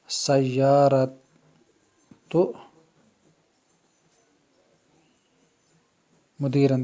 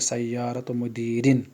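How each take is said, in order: First: The last word ends with an 'an' sound. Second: The last word ends with an 'in' sound. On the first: The speaker calls it wrong. "मुदीरन पर ज़बर है। ... ये गलत है" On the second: The speaker calls it right. "ज़ेर होता है, तो हम कहेंगे ... अब ये ठीक हो गया"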